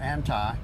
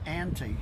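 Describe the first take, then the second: First: It is said with a Greek pronunciation. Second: It is said with an English pronunciation.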